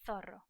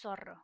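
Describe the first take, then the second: First: The first sound is a lisped 'th'. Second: The first sound is a hissing 's'. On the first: "In Spain" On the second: "In Latin America"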